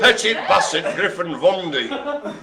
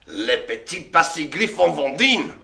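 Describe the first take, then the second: First: "Petit Basset Griffon Vendine" with English sounds, drawn out; "Petit Basset Griffon Vendine" slow and anglicised, with a laugh; anglicised pronunciation. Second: "Le Petit Basset Griffon Vendine" with French vowels; "Griffon Vendine" with nasal French vowels; French-style pronunciation. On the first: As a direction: say "Petit Basset" slowly with hard English consonants. Alternative version after "Or. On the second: French name, then an alternative version. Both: Shown as a demonstration.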